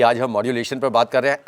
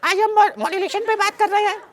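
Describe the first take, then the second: First: Said in the usual way. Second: Very high squeaky put-on voice; voice change. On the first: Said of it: "अगर मान लीजिए मैं बोल रहा हूँ". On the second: Shown as a demonstration. Trainer parodies modulation for students, absurdly high changed voice. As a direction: jump far up into a piping high pitch. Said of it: "voice change".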